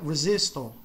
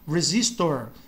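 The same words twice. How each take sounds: First: The final R is almost silent. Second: The final R is pronounced strongly. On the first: "no inglês britânico o R no final ele é quase que praticamente silencioso" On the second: "o R no final ele fica muito forte"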